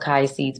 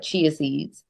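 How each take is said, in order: First: The first word begins with a k sound. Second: The first word begins with a ch sound. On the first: The speaker calls it wrong. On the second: The speaker calls it right.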